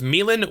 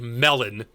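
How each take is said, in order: First: The name is pronounced like 'Milan'. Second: The name is pronounced like 'melon'. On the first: The speaker calls it right. "which is the proper way to pronounce it" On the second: The speaker calls it wrong. "and not like Melon"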